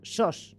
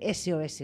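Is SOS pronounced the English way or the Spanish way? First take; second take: Spanish; English. First: It is pronounced as a Spanish word. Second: It is pronounced the English way. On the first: It means 'alone' in Spanish. The speaker calls it right. "SOS con acento en la O. Solos en castellano" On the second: It is the international distress signal. The speaker calls it wrong. "no confundir con el inglés. Claro, no, nada de SOS"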